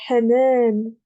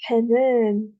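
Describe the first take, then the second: Both takes have the same delivery.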